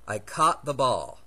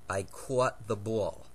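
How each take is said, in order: First: It is said in a typical Californian accent. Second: It is said in a New Jersey accent. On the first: "Now here's how my fellow Californians tend to pronounce these two words" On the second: "Here's how my mother pronounces these two words. As noted, she's from New Jersey"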